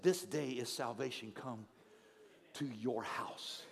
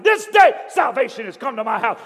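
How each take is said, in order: First: Quiet reflective quote. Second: Loud, high triumphant shout; running through the street shouting for joy. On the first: Shown as a demonstration. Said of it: "I love this fact". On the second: A narrator's reading. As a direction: proclaim it at the top of your lungs. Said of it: "They could hear him shouting".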